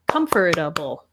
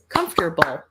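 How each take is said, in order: First: The word is said with four syllables. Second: The word is said with three syllables. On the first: "three or four syllables, depending on how you say it" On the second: "three or four syllables, depending on how you say it"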